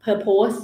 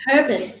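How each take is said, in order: First: "purpose" as per-POSE, with a full o; Thai mispronunciation. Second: "purpose" as PUR-pus, with a weak second syllable; corrected pronunciation. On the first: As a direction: demonstrate Thai-style "purpose", ending like "pose". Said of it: "ถ้าเป็นคนไทยเราชอบออกเสียง". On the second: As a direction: say "purpose" ending like the "pers" of Pampers, without a full o. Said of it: "คล้ายๆ pampers". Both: Shown as a demonstration.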